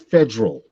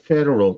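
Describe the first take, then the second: First: The word is said in a dialect accent. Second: The word is said in a plain accent. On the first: The speaker calls it right. "it's federal" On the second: The speaker calls it wrong. "Is not federal"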